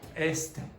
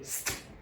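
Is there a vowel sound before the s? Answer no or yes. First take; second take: yes; no. First: It starts with a short e before the s. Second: It starts directly with the s sound. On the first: The speaker calls it wrong. "not est" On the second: The speaker calls it right. "they'll say st"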